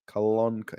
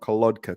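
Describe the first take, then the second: First: The consonant before the k is n. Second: The consonant before the k is d. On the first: The speaker calls it right. "Kolonka, not Kolodka" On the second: The speaker calls it wrong. "except for the D sound"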